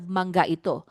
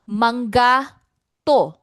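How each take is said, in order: First: The full word ito is said, with i. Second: The word is shortened to to, without i. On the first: It is the full standard form. "instead of" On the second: It is casual everyday speech. "in casual speech, native speakers often say to. They drop the I"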